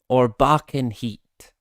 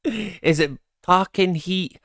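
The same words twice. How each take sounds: First: Slow, falling "back in heat"; stress on BACK. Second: "packing" pitched high and drawn out; slow question, leaning on "packing"; stress on PACKING. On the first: Streamer offering viewers the other reading, stress on "back". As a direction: lean on "back" as the second option. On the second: Streamer asking viewers which line is right, stress on "packing". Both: Shown as a demonstration. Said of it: "that's one we're gonna need to get confirmed".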